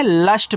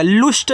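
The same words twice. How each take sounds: First: लस्ट said with a short a vowel, as English lust; लस्ट with a clean st ending; correct English pronunciation. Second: लुष्ट said with an u vowel and a retroflex sht, as loosht; लुष्ट as a mistaken Hindi-style reading; wrong pronunciation. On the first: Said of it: "लस्ट पढ़ना है". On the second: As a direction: show the wrong way, लुष्ट with u like pull. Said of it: "लुष्ट नहीं पढ़ना है". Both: Shown as a demonstration.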